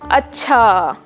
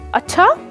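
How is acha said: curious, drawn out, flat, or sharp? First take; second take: drawn out; sharp. First: The word is stretched out slowly. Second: The word is said short and sharp. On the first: "Drawn out"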